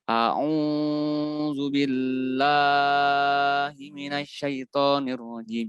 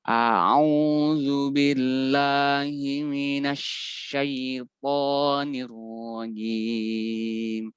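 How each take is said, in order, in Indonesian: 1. Vokal panjang ditahan dengan panjang yang tidak sama. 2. Vokal panjang ditahan dengan ketukan yang stabil. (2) "ketukannya pun kita buat konsisten"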